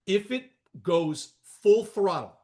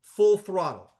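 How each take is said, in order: First: Full throttle said slowly and leaned on; slow, weighty full throttle; stress on full throttle. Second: Full throttle punched louder; full throttle, loud and emphatic; stress on full throttle. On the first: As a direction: hit full throttle hard. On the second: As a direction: land hard on full throttle. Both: Shown as a demonstration. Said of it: "and this is the key word".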